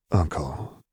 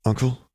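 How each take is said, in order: First: Understated, falling sad address. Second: Higher, tentative rising question; cautious. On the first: Nephew to his uncle after the bluff failed, sadly. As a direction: say the name with a touch of sorrow. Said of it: "he said sadly". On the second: Nephew afraid he has broken something, cautious question. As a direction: ask carefully, pitch lifting. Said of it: "he asked cautiously". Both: A narrator's reading.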